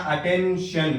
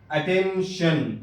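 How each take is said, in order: First: Said in the usual way. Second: اٹینشن drawn out slowly, with "shun" clearly sounded at the end; slow careful demo. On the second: Shown as a demonstration. Teacher slowly models the word for Urdu learners, drawn out. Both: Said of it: "T کے بعد آئی او ہے".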